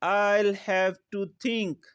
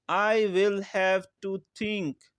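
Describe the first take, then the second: First: 'I will' is shortened to one syllable, 'I'll'. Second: 'I will' is said as two full words.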